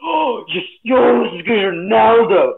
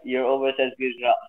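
First: It is said with lively, excited enthusiasm. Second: It is said flatly, without much enthusiasm.

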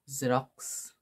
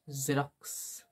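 First: The word starts with a 'z' sound. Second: The same.

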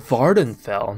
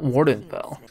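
First: The name starts with a V sound. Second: The name starts with a W sound. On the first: The speaker calls it right. "it's Vardenfell" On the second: The speaker calls it wrong. "not Wardenfell"

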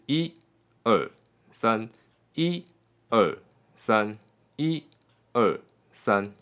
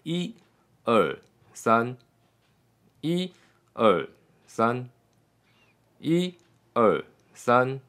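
First: The counts flow evenly without any gap. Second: A longer gap follows each three.

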